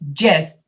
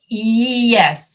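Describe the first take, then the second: First: The word begins with a j sound. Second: The word begins with a y sound. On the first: The speaker calls it wrong. "you don't say just" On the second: The speaker calls it right. "you say yes"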